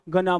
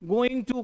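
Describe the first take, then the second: First: The words blur into one short word, gonna. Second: Both words are said fully and separately. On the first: "गना बोल दो। ... सब American accent है" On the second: "गोइंग टू कौन बोलेगा?"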